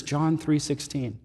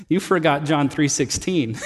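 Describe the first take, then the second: First: Soft and slow, "John three sixteen" barely voiced; whisper. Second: Sheepish chuckle through the words; laughing. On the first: Sick husband softly asking for a verse. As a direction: hush it like a frail man in bed. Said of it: "And he whispers". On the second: Retold or imitated. Friend teasing her pastor with a laugh. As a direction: tease him gently with a laugh. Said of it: "she got this really sheepish, beautiful grin".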